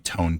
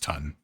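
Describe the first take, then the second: First: The vowel is a long o, as in tone. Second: The vowel is a short u, as in ton. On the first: The speaker calls it wrong. "T O N N E is going to be tone to me" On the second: The speaker calls it right. "I know it's ton"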